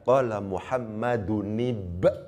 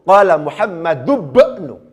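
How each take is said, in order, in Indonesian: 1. Muhammad berakhir dengan -un sebelum ibnu yang terpisah. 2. Muhammad berakhir dengan -u dan langsung tersambung ke bnu. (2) "Ini tidak ditanwin"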